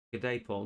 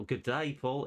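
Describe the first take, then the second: First: Said in the usual way. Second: Higher-pitched, bad Australian greeting; playful fake Aussie twang; mock Australian accent. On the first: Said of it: "My accents are terrible". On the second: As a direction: put on a cheesy Australian accent. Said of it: "Is he Australian?".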